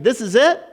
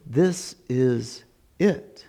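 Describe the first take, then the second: First: High, rising "This is it?"; higher, quick, incredulous query on "This is it"; disbelieving criminal. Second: Very slow, low-key "this is it"; accepting criminal. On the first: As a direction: question it as a letdown. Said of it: "The other criminal was constantly saying". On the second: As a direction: let each word settle in realization. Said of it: "And this one was going". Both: Acted.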